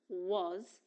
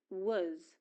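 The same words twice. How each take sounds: First: "was" with a full rounded "o" vowel; strong form of was. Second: "was" with a reduced schwa vowel; weak form of was. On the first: Teacher shows the verb alone, strong "was". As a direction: say "was" like "woz". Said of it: "and in strong form". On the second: Teacher shows the verb alone, weak "was". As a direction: say "was" like "wuz". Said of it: "pronounced in weak form". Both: Shown as a demonstration.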